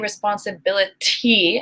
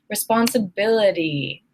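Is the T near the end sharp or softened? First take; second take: sharp; softened. First: The final T is a sharp, full T. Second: The final T is a soft, quick tap. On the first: The speaker calls it wrong. "I do not say responsibility" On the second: The speaker calls it right. "I usually say responsibility"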